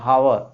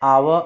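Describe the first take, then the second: First: The word begins with an audible h sound. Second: The word begins directly with a vowel sound. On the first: The speaker calls it wrong. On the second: The speaker calls it right.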